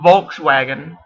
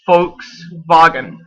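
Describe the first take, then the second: First: It is pronounced the English way. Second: It is pronounced the German way. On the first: The speaker calls it wrong. "not Volkswagen" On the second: The speaker calls it right. "The correct pronunciation"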